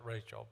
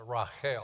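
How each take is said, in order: First: The name has an English-style pronunciation. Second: The name has a Hebrew-style pronunciation. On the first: This is how the speaker's own community says it. "we're the ones that pronounce it Rachel" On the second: This is how it is said in Hebrew and in Europe. "the Hebrew word for Rachel is uh"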